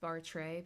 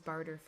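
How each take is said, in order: First: The name ends with a 'tray' sound. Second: The name ends with an 'er' sound. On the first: This is how other people say it. "that's how I hear other people pronouncing it" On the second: This is how the speaker says it privately. "in my head he's Barter forever"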